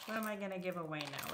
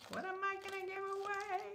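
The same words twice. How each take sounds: First: Said in the usual way. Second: High, soft silly voice; playful squeaky voice. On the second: Pretend. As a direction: toss the question up in a tiny voice. Repeats musing in put-on voice.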